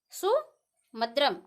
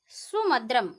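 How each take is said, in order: First: सुमद्रम drawn out slowly, each syllable clear, su-mad-ram not samudram; clear sumadram. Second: Said in the usual way. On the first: Shown as a demonstration. Teacher to students, slowly spelling out सुमद्रम. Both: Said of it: "समुद्रम नहीं है".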